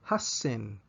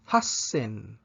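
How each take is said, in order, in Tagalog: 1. May dobleng s ang salita bago ang 'en'. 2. May dobleng s ang salita bago ang 'en'.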